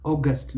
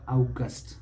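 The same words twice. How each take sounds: First: August said as AW-gust; correct pronunciation. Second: August said as OW-gust; mispronunciation. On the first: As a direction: start August with a pure "aw". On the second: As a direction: start August like "ouch". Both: Shown as a demonstration. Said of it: "never August".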